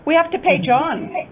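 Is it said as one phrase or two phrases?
one phrase. It is said as one unbroken phrase.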